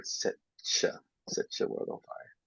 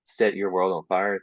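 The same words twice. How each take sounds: First: "set your" run together as set-chuh, said softly; blended set your. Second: Said in the usual way. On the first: Shown as a demonstration. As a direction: turn the t and y of "set your" into a soft ch. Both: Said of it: "lots to do with pronunciation".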